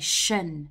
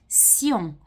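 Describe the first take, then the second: First: The ending sounds like 'shun'. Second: The ending sounds like 'see-on'. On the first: This is how it is said in English. "whereas in English we would say shun" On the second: This is how it is said in French. "becomes sion in French"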